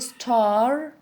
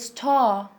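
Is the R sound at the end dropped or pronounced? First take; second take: pronounced; dropped. First: The final R sound is clearly pronounced. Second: The final R sound is dropped. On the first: "Americans say" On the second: "British people say"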